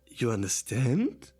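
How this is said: The pitch rises at the end. It is a question.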